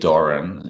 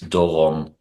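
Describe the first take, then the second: First: The name is said in a simplified, easier form. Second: The name is said in its original native form. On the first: It is made easy for foreigners to say. "that's just the easiest way for people to pronounce it" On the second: It is the name's true form. "if you really want to do it the, the right way"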